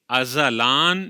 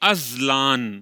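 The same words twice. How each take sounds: First: A vowel follows the z sound. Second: No vowel follows the z sound. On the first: The name means eternal. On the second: The name means hardship in making a living.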